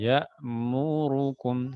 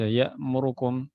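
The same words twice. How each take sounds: First: Every letter is given an even length. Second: One letter is rushed and cut short. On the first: The speaker calls it right. "harusnya gitu" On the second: The speaker calls it wrong. "Tapi kadang orang baca"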